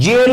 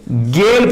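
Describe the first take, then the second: First: जेल said with a soft English j, like jail; जेल with a j sound as in jail; wrong soft j. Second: गेल said with a hard g, rhyming with tail; गेल with a hard g and a long e; right hard g. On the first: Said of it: "जेल नहीं पढ़ेंगे". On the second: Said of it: "गेल पढ़ेंगे". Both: Shown as a demonstration.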